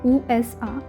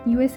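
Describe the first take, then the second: First: The letters are said with German letter names. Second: The letters are said with English letter names. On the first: The speaker calls it right. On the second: The speaker calls it wrong.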